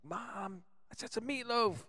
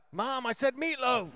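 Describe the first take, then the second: First: Put-on high, whiny man-child call; Will Ferrell impression. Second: Put-on loud, high whiny man-child yell; whine-yell at mom from the basement; Will Ferrell impression. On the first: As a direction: yell at mom from the basement. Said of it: "And he's like". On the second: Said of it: "When Will Ferrell lives in the basement".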